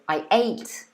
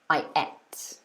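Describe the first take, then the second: First: The vowel in 'ate' sounds like 'day'. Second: The vowel in 'ate' sounds like 'egg'. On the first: "it's got the a sound" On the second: "it's like the e of egg"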